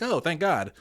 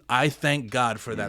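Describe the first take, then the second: First: Tossed-off, higher-pitched throwaway relief; flippant. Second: Measured and earnest, in an everyday pitch; mean every word of the thanks; sincere, literal. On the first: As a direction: say it lightly, as a casual figure of speech. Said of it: "it's not like I say it flippantly". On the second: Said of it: "Like, literally, it's not like I say it flippantly". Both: Shown as a demonstration.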